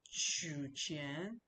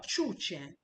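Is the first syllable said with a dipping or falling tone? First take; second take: dipping; falling. First: The first syllable has a low dipping tone. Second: The first syllable has a sharp falling tone. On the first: Withdraw money. The speaker calls it right. "the third character to withdraw" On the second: The word is not understood as withdrawing money. The speaker calls it wrong. "I use the fourth tone. The person would not understand"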